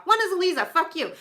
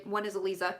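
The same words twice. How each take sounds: First: Teasing, higher and laughing; mock insult to a friend; playful taunt. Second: Said in the usual way. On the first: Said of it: "I'm flipping her off".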